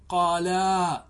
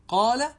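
First: قالا with a slow, long-held final aa; dual alef on قالا. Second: قال cut to a short final a, high and loud (qaala); singular verb form. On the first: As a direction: draw out the last aa of قالا. (مدّ ألف التثنية طويلًا في «قالا») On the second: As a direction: say قال without any dual aa at the end. («قال» بفتحة قصيرة دون ألف التثنية) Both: Shown as a demonstration. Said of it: "لم يقل إيش؟".

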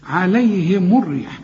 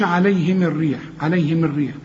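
First: عليهم joined slowly as "alayhimu r-rih"; m with damma. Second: عليهم joined as "alayhimi r-rih"; wrong linking vowel. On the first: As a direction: round the m of عليهم to "mu" into الريح. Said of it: "الميم هنا مضمومة عند الوصل". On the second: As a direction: demonstrate the mistake, i after the m of عليهم. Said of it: "ما تقولش". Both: Shown as a demonstration.

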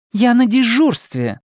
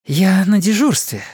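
First: «на дежурстве» slow and high, «на» hit hard; insist, stressing «на»; insistent repeat. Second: Said in the usual way. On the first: Acted. Anna insisting to the chief she is on duty, stress on «на».

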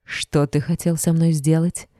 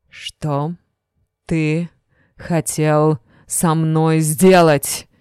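First: Said in the usual way. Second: Each word Что, ты, хотел со мной сделать? spaced apart, very slow; slow menacing repeat. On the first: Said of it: "repeated slowly". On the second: A narrator's reading. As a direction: drag it out word by word, threatening.

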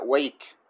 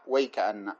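First: "ويك" ended on a clear k; stop on the kaf. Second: "ويك أن" run together to the doubled n; stop at word's end. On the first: Teacher shows others' stop, halting on the kaf. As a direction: halt on the final k of "ويك". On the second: Teacher shows the third reading, stopping after the whole word. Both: Shown as a demonstration. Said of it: "وبعضهم يقف على".

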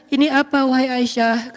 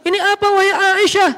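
First: Storytelling tone. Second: High, declaiming sermon delivery; khutbah tone. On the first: Prophet to Aisyah on coming home, storytelling tone. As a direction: say it as in gentle storytelling, not preaching. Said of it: "harus dibaca dengan nada storytelling". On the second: Demonstrating the wrong way to question Aisyah, khutbah tone. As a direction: pitch it up like a preacher addressing a congregation. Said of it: "Kalau nada khutbah". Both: Shown as a demonstration.

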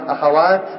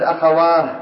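First: "أخوات" ending in a clear t, akhawaat; final t kept. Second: "أخواه" ending in breathed h, akhawaah; final t as h. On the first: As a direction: stop on "أخوات" with an audible t. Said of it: "يقفون بالتاء". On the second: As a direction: stop on "أخواه" with h, no t. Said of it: "من يقف بالهاء". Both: Shown as a demonstration.

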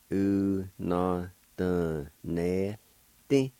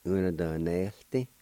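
First: Una doneste stretched out syllable by syllable; drawn-out teaching pronunciation; slow syllable demo. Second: Said in the usual way. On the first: Shown as a demonstration. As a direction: say it very slowly, each syllable sustained. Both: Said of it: "like this".

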